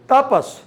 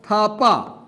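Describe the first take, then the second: First: The name begins with a plain 't' sound. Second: The name begins with an aspirated 'th' sound. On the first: The speaker calls it wrong. "she pronounces Tapas" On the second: The speaker calls it right. "Writer's surname was Thapa"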